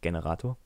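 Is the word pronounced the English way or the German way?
German. The word is pronounced the German way. The speaker calls it wrong. "nicht Generator"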